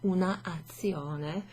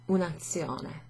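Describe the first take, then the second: First: The article's final vowel is kept before the noun. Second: The article's final vowel is dropped before the noun. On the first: The speaker calls it wrong. "It's easier to say than una azione" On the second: The speaker calls it right. "we would have un azione"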